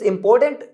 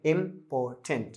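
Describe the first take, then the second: First: Said in the usual way. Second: "important" slow and softer, im-po-tent with gaps; broken into three parts. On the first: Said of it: "इसको तीन भागों में". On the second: Shown as a demonstration. Teacher breaking the word for students, "important" in three slow parts. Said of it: "तीन भागों में आप तोड़ रहे हैं".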